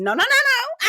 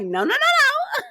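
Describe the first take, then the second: First: High, laughing no-no-no; mock Mel. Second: Very high, slow squealed no-no-no; imitating Mel. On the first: Mel refusing to take off her shades, high and laughing. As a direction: squeal it like Mel dodging. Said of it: "She go reaching for her face". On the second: Mel refusing to take off her shades, very high and slow. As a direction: stretch each no up high like Mel. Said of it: "Mel was like".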